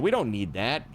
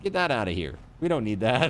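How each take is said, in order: First: Said in the usual way. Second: Said through a laugh. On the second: Real, not acted. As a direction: chuckle while saying it.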